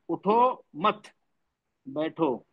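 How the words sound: There is a pause after the word mat. The listener is told to stay seated. "उठो मत, comma लगा दिया मैंने, बैठो"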